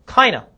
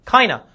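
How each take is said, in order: Both takes have the same delivery.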